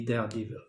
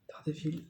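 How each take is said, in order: First: Daredevil said the French way, soft French r and flat even syllables; French pronunciation. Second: Said in the usual way. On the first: Shown as a demonstration. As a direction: say Daredevil like a French word, not English. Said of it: "Là, je prononce à la française". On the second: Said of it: "je prononce à la française".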